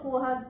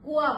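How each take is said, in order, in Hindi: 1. अंतिम स्वर अनुनासिक है। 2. अंतिम स्वर मौखिक है, अनुनासिक नहीं। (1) "चंद्र बिंदु हटा देंगे तो" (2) "कुआ हो जाएगा"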